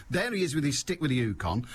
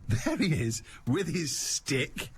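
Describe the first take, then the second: First: Said in the usual way. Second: With his stick spoken very slowly and weighted; emphatic and careful. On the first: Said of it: "once again". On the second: Shown as a demonstration. Picturing the bishop with his pricey stick, emphatic. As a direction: lean on with his stick, slow and deliberate. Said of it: "which I pronounce emphatically and carefully".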